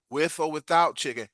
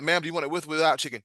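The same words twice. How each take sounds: First: Acted, slower "with or without chicken"; slowed-down repeat. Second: Said in the usual way. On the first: Server repeating the question to guest, slow and deliberate. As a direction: spell it out slowly for her.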